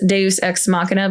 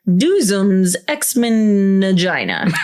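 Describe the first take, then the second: First: It is said with the usual Latin-style sounds. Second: It is said like English words Doozum's X-Men Vagina. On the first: "So it has Deus Ex Machina" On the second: "he's like Doozum's X-Men Vagina"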